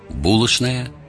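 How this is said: It is said with the Moscow pronunciation. "Московский выговор"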